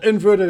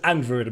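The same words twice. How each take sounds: First: The first syllable sounds like the word 'in'. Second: The first syllable sounds like the letter 'N'. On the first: It is the ordinary word. The speaker calls it wrong. "Not inverted" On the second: It is a pun on the game's naming. The speaker calls it right. "it's inverted because Crash Bandicoot likes its puns"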